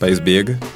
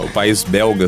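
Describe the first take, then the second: First: The word is said without its L sound. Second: The word is said with its L sound.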